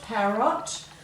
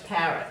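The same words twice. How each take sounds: First: The last syllable has a full, clear vowel. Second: The last syllable has a reduced schwa vowel. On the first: "pronounce them correctly" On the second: "we give it a schwat sound"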